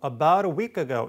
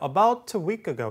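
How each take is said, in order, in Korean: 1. t 소리는 부드럽고 빠른 r 같은 탄설음으로 나요. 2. t는 분명하게 터뜨려 내는 t로 발음해요. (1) "미국식 영어에서 일반적으로 이 나타나는 아, 우리말 릴과 유사하게 발음되는" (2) "영국식은 t하고 뒤에 이렇게 뒤에 모음"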